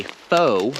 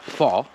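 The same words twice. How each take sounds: First: Fo as "foh"; English fo. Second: Fo as "faw"; wrong fo. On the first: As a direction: glide fo toward oo. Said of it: "that we say fo". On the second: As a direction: keep fo open on "aw". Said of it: "and not fo". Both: Shown as a demonstration.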